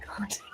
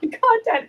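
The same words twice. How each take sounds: First: Breathy whispered word Content. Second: Content said high with a laugh. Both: Shown as a demonstration.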